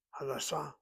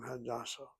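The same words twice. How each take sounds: First: Hadassah with DA stressed, HA light; stress on the second syllable. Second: Hadassah with HA stressed, the rest unstressed; stress on the first syllable. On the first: Teacher showing the hospital Hadassah, stressing the second syllable. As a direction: push the weight onto the middle syllable of Hadassah, the hospital. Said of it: "If you accent the second syllable". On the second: Teacher showing the name Hadassah, stressing the first syllable. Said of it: "If you accent the first syllable". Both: Shown as a demonstration.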